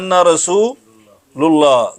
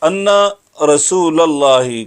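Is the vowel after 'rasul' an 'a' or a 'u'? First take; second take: u; a. First: The vowel after 'rasul' is a 'u'. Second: The vowel after 'rasul' is an 'a'. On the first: The speaker calls it wrong. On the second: The speaker calls it right.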